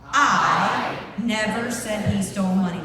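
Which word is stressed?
I. The stress is on I.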